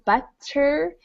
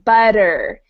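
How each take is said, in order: First: The middle consonant is a soft T sound. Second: The middle consonant is a quick D-like flap. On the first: "instead of sounding like a soft T like butter" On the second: "it sounds like butter. ... So it sounds a little like a D"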